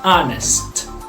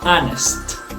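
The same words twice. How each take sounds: First: The word starts directly with a vowel sound. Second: The word starts directly with a vowel sound.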